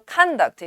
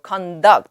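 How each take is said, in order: First: It is pronounced as the noun form. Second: It is pronounced as the verb form. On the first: It means behavior. "명사로 conduct 이러면" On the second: It means to lead or carry out. "동사로 conduct 이렇게 발음하면"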